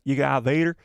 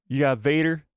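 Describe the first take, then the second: First: Light cartoon tow truck twang; Tow Mater impression. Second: A hint of a drawling tow truck; accidental Tow Mater voice. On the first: Shown as a demonstration. Streamer repeating the line on purpose, a light Tow Mater voice. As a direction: redo it as the rusty tow truck. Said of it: "I sounded like Tow Mater". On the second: Real, not acted. Streamer answering chat, a light Tow Mater twang. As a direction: slips into a light cartoon twang. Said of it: "why did I say it like that".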